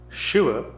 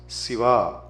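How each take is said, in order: First: The word begins with a sh sound. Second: The word begins with a plain s sound. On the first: The speaker calls it right. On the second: The speaker calls it wrong.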